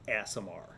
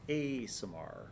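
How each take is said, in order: First: The first syllable sounds like the word 'ass'. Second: The first syllable is a long open 'ah' sound. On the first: "Unless you just wanted to be funny" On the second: "since there are not two S's, in fact there are two A's"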